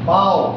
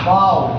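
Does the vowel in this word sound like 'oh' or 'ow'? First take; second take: ow; ow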